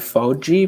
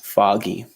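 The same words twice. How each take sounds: First: The middle consonant is not a hard G. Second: The middle consonant is a hard G. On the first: The speaker calls it wrong. "Sometimes people say foggy, but that's not correct" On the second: The speaker calls it right. "The pronunciation is foggy with a G"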